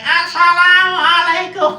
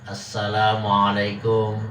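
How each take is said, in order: First: It is said in a shrill, tinny voice. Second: It is said in a normal voice.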